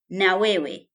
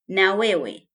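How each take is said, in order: First: It is said as two full words. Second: It is said as two full words.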